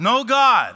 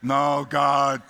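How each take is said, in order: First: It is said with lively, excited energy. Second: It is said flatly with little energy. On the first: The speaker calls it right. "Can you say it with some excitement and enthusiasm?" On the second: The speaker calls it wrong. "you sound like zombie apocalypse"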